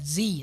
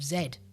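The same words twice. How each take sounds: First: The letter is said as zee, American style. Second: The letter is said as zed, British style.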